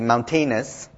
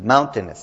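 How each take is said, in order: First: The stress is not on the first syllable. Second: The stress is on the first syllable. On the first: The speaker calls it wrong. "a lot of students say mountainous" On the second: The speaker calls it right. "with the accent on the first one"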